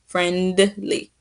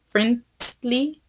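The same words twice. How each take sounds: First: It is said with a D sound. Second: It is said with a T sound. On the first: The speaker calls it right. "friendly has a d d d d d" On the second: The speaker calls it wrong. "You kind of pronounce it like with the T sound"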